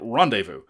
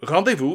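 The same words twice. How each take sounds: First: It is said with an English pronunciation. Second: It is said with a French pronunciation.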